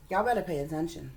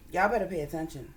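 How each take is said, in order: Both takes have the same delivery.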